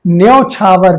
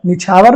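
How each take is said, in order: First: न्यौछावर with a clear "nyau" glide; teacher giving the correct न्यौछावर; correct pronunciation. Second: निछावर said with a plain "nichhavar"; teacher voicing the mistaken निछावर; wrong spelling said. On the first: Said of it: "क्या होता है आपका?". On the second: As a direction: say निछावर as the wrong form, short "ni". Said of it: "नहीं होता है". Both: Shown as a demonstration.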